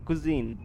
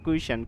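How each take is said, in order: First: The middle consonant is a z sound. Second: The middle consonant is a sh sound. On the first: The speaker calls it right. "কুজিন বলা হয়" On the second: The speaker calls it wrong. "Not কুইশান"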